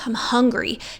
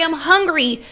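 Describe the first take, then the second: First: It is said at a normal volume. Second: It is yelled very loudly.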